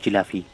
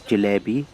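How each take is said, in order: First: It is said in a casual, everyday form. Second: It is said in a refined, posh form. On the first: "I call them jilafi" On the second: "that's the posh way of saying it"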